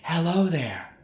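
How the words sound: The voice sounds loose and airy. "Too loose"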